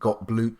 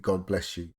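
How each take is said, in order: First: The name ends with a short 'bloop' sound. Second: The name ends with the sounds 'bless you'. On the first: The speaker calls it wrong. "I always pronounce it "got bloop" because that's how it's spelt" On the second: The speaker calls it right. "but it's supposed to be "God bless you.""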